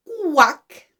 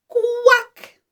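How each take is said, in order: First: Falling quack at natural pitch; plainly modelled duck sound. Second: High, bright-pitched quack; high demonstration quack; duck quack. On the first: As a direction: show a clear quack for children. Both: Shown as a demonstration. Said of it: "Watch my mouth".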